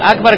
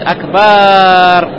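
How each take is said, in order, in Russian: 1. Вторая гласная краткая, не растянутая. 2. Вторая гласная долгая, растянутая. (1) "вместо фразы акбар" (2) "тянет акбар фаязиду алиф алифан, и добавляет алиф"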